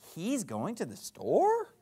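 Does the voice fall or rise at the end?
rise. The voice rises at the end, like a question.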